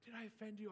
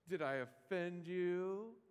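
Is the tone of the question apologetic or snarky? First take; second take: apologetic; snarky. First: It is said in a soft, apologetic tone. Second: It is said in a sarcastic, mocking tone. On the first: The speaker regrets causing offense. "I would have maybe been tempted to apologize" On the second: The speaker mocks the listener for taking offense. "He might get snarky with it"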